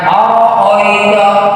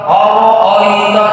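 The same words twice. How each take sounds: First: The vowels are rounded o sounds. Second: The vowels are rounded o sounds.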